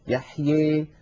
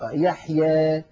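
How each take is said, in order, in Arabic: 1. الحركة الأخيرة تميل بقوة نحو 'ee'. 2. الحركة الأخيرة تميل قليلاً نحو 'ee'. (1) "يبالغ في هذا الأمر فيخلط صوت الألف بصوت الياء أكثر" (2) "هكذا يرخون حنكهم قليلا"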